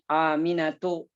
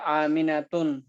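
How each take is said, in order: First: The word ends on a vowel without n. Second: The word ends with an added n sound. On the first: The speaker calls it right. "dia tetap dibacanya aminatu" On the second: The speaker calls it wrong. "nggak boleh aminatun"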